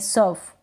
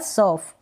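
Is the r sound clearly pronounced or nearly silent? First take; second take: silent; pronounced. First: The r sound is very light. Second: The r sound is clearly pronounced. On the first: "आर को बिल्कुल हल्का सा करें" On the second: "या"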